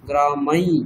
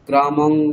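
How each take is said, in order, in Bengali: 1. শব্দটি শেষ হয় নাক দিয়ে উচ্চারিত y ধ্বনিতে। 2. শব্দটি শেষ হয় সাধারণ ng ধ্বনিতে। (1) "ইয়কারটা নাক দিয়ে বলছি" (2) "এইসব কিছু বলছি না"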